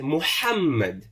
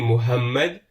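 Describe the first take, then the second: First: The middle h is strong and from the throat. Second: The middle h is light and plain. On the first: The speaker calls it right. "You put a bit more emphasis" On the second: The speaker calls it wrong. "It won't be Muhammad"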